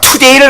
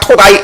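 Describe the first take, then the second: First: The second syllable sounds like 'day'. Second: The second syllable sounds like 'die'. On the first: "투데이를 갖다가" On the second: "오스트레일리아 발음"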